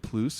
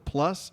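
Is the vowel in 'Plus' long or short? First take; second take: long; short. First: The vowel is stretched into a long 'oo'. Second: The vowel is short, like 'plus'.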